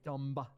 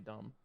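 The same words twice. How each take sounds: First: The final B is clearly pronounced. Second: The final B is silent. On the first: Someone else says it this way. "you can really emphasize the B. Like Peggy at Up and Adam, she'd say dumb" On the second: This is the speaker's own way. "but not me. I just say dumb"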